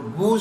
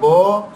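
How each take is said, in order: First: The vowel is a pure, rounded 'oo' sound. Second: The vowel is a mid 'oh' sound. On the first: The speaker calls it right. "बू सही है" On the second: The speaker calls it wrong. "बो सही नहीं है"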